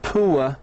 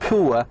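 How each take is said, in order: No difference in how they are said.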